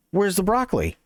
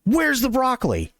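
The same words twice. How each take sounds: First: A little higher, with a hint of impatience; a bored customer asking again, slightly irritated; impatient customer. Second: Angry customer. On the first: Customer asks again, annoyed. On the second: Retold or imitated. He gets this angry tap.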